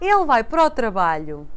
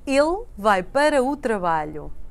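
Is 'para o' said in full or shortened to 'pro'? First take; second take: shortened; full. First: Para o is shortened to pro, said faster. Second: Para o is said in full, at normal speed.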